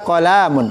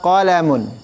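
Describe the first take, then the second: First: The second syllable has a long vowel. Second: The second syllable has a short vowel. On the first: The speaker calls it wrong. "berarti antum membentuk, mem- meminta di situ ada ada matnya di situ" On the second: The speaker calls it right. "Yang betul"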